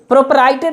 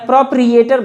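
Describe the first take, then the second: First: The second syllable is said like 'pry'. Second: The second syllable is said like 'pree'. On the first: The speaker calls it right. "प्रोपराइटर इसको बोला जाता है" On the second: The speaker calls it wrong. "मैं प्रोप्रिएटर बोल दिया, गलती है मेरी"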